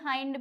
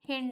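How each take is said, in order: First: The vowel is a long 'eye' sound. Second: The vowel is a short 'i' sound.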